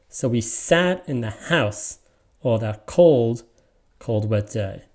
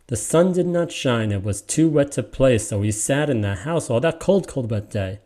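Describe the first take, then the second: First: Slow and deliberate; slow metrical reading for class; slow scansion reading. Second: Reading to a younger sibling; natural reading to a kid; natural read-aloud. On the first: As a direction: read each beat slowly. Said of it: "let me read it the way". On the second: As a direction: read it like a bedtime story. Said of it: "let me read it the way I would read it". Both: Shown as a demonstration.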